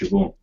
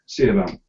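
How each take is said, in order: First: It starts with 'sh' and has a 'v' sound. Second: It starts with 'see' and has a 'b' sound. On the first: The speaker calls it right. "it's pronounced Siobhan" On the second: The speaker calls it wrong. "But it reads Seabaum"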